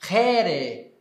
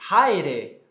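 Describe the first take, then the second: First: The first vowel is a plain 'e'. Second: The first vowel is an 'ai' diphthong. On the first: This is the later Koine pronunciation. "aqui eu terei Here" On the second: This is the classical Greek pronunciation. "salve, Haire"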